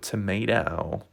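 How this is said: It is said in an American accent.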